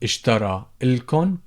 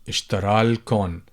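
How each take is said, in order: First: The vowel before 'l' is kept. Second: The vowel before 'l' is dropped.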